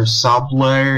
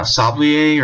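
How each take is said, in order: First: Sablé in two syllables, ending "-lay"; alternative pronunciation. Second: Sablier with a French-style "-ee-ay" ending; unsure pronunciation. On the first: Reviewer guessing at a place name, Sablé said slowly with "-lay" ending. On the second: Reviewer guessing at a place name, Sablier said slowly as "sab-lee-ay". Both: Real, not acted. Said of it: "no idea how to pronounce".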